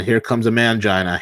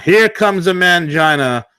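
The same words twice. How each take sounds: First: Said in the usual way. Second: Drawn out, louder, higher, HERE leaned on; slow emphatic repeat. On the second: Shown as a demonstration. Mocking the man to the co-host, slow and emphatic. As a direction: repeat "Here comes a mangina" slowly, weight on "Here".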